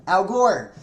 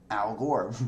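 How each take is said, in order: First: Loud, high blurted name; loud outburst. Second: Said in the usual way. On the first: Real, not acted. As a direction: shout the name out suddenly. Blurts name before reading it.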